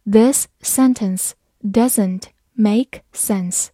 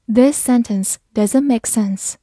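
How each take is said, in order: First: Very slow, careful read-aloud. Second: Said in the usual way. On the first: Shown as a demonstration. Teacher reading slowly for learners. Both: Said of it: "好，慢慢来读。".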